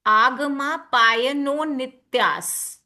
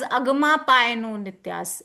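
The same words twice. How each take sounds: First: "Agama" opens on a long aa, drawn out slowly; slow recitation, hold the first A of "Agama"; long opening A. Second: "agama" opens on a short uh-like a; short opening a. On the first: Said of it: "it becomes A". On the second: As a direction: say "agama" quicker, first vowel cut short. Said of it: "I'm not s-, calling it as". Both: Shown as a demonstration.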